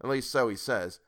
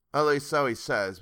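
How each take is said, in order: First: Said in the usual way. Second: Least punched louder, falling; stress on least. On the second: Shown as a demonstration. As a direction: hit the word least hard.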